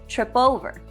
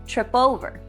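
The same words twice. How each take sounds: First: The final p runs into the next word. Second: The final p runs into the next word.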